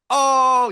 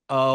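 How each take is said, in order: First: It sounds like impressed, joyful recognition. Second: It sounds like a sexual moan of pleasure.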